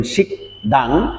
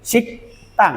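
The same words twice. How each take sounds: First: "শিক দাং" with a soft voiced দ instead of the tense ত; wrong pronunciation. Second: "শিক তাং" with a tense unvoiced ত, said higher; correct pronunciation. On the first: Teacher shows the common wrong pronunciation learners use. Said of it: "এটি ভুল উচ্চারণ". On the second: Teacher models the correct pronunciation after the wrong one. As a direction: give the right form "শিক তাং" clearly. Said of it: "এর উচ্চারণ হয় সাং দ্বিগুতের". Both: Shown as a demonstration.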